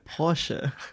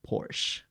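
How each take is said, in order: First: The final e is pronounced. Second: The final e is silent. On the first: The speaker calls it right. "You mean Porsche?" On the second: The speaker calls it wrong. "whenever someone says like"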